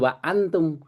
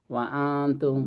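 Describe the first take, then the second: First: The nasal hum before the t is cut short. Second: The nasal hum before the t is held long. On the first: The speaker calls it wrong. "Bukan wa antum" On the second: The speaker calls it right. "Setiap ifa itu dibaca dua"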